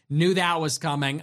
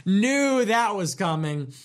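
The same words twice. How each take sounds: First: Said in the usual way. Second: Slow knowing drawl. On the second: Shown as a demonstration.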